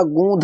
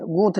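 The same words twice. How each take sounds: First: गूंध said with a voiced aspirated dh, as the correct form; right form. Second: गूंथ said with an aspirated th, marked as the wrong form. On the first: Teacher giving students the right word, गूंध with dh. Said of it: "गूंध होता है". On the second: Teacher showing students the wrong word, गूंथ with th. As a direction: say गूंथ with th, as the mistake. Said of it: "गूंथ नहीं होता". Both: Shown as a demonstration.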